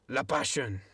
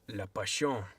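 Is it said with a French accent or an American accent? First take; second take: American; French. First: It is said in his ordinary American accent. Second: It is said with a put-on French accent.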